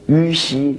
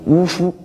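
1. 按普通的字音读。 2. 按特别的古音读。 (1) "大学上明明是于西两个字" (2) "你们偏要读成呜呼"

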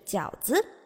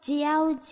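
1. 这是用标准的普通话发音说的。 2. 这是用外国人的、非中文的口音说的。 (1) "他其实说的是饺子" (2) "如果大家听到他说饺子"

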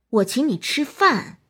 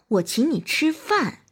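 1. 重音在「饭」上。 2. 重音在「饭」上。

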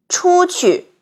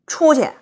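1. 这是标准普通话。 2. 这是北京口音。

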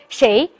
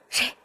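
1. 说得很平静，没有急促的呼吸。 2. 说得很害怕，带着喘息的呼吸。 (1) "你还能这么淡定的说谁？" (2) "是真的害怕。"

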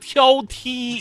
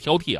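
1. 第二个音节是高平调。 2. 第二个音节是降调。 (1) "挑剔是一声啊" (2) "你也说错了啊"

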